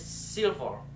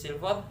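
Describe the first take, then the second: First: "silver" with first syllable punched, second falling; first-syllable stress. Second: Said in the usual way. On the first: Shown as a demonstration. Student showing word stress in "silver", first syllable stressed. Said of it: "The stress in the first". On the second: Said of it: "the syllable stress that is silver".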